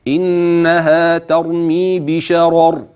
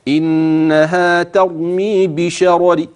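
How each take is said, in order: First: The final r stops cleanly, with no vowel trace. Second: The final r carries a faint trace of vowel. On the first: "إن وقفت بالسكون هكذا" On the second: "لو أنك أردت أن تأتي بروم"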